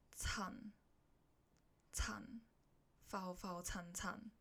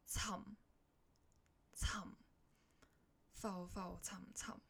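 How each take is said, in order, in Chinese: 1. “沉”收尾是开唇的n。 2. “沉”收尾是闭唇的m。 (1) "假如你发了" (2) "最后那个n 要变成m"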